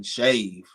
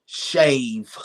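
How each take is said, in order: First: Said in the usual way. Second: Breathy whisper of the one word Shave; Shave. said as a hushed whisper, falling; whispered answer. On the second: Real, not acted. Asked for his deal breaker, he whispers the answer.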